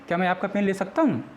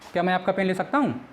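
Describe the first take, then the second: First: It is said in a soft, polite tone. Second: It is said in a plain, confident tone.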